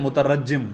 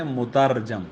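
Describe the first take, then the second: First: مترجم as "mutarajjim", doubled j and final i; wrong pronunciation. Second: مترجم as "mutarjam", r without vowel; correct pronunciation. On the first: Teacher quoting how some wrongly read it, wrong pronunciation. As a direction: say مترجم as "mu-ta-RAJ-jim". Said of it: "غلط ہے". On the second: Teacher telling students the original word, correct pronunciation. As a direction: say مترجم as "mu-TAR-jam". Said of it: "یہ لفظ اصل میں ہے". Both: Shown as a demonstration.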